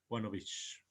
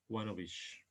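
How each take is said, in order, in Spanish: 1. La palabra of termina en sonido v. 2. La palabra of termina en sonido v.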